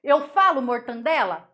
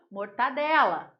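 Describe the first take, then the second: First: Saying mortandela with an extra N sound; deliberately wrong mortandela. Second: Mortadela said cleanly without the N; careful correct mortadela; teacher's correct form. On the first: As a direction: stress the added N in mortandela. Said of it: "Não tem esse N que eu falei ali". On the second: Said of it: "Qual que é o correto?". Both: Shown as a demonstration.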